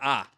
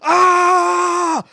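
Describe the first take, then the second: First: It is said at a normal, calm volume. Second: It is screamed loudly and wildly.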